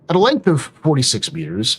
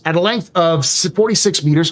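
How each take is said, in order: First: It is said in a put-on narrator voice. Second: It is said in an ordinary speaking voice. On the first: The speaker calls it right. "let me do the, the Astro Historian voice" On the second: The speaker calls it wrong. "or sorry"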